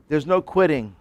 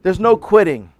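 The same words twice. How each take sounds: First: Said in the usual way. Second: "no" punched loud and high; emphatic. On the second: Acted. Preacher hammers the point to his congregation, loud. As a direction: drive home "no quitting".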